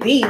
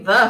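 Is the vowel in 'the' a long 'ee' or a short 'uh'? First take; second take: long ee; short uh. First: The vowel is a long ee sound. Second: The vowel is a short uh sound. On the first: The speaker calls it right. "T-H-E-E. That's why we say the" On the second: The speaker calls it wrong. "We don't say the"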